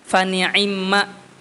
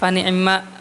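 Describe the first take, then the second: First: The kasrah on the ain is fully pronounced. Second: The kasrah on the ain is partly pronounced. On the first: "kalau yang sempurnanya ... di ainnya tuh jelas kasrohnya" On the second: "Contohnya pada kata fani'imma"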